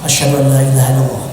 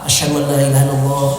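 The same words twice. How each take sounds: No difference in how they are said.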